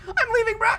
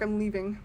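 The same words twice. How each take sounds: First: High-pitched, urgent protest; jumpy, raised-pitch alarm; panicky exclamation. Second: Said in the usual way. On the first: Real, not acted. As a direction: blurt it out to get away. Scared of dark, repeats louder.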